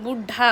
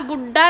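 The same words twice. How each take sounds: First: The middle consonant is aspirated. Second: The middle consonant is unaspirated. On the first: The speaker calls it right. "बुढ़ा होता है" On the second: The speaker calls it wrong. "बुढ़ा नहीं"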